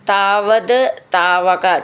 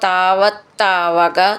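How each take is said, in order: First: The two words are said separately. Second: The two words run together as one.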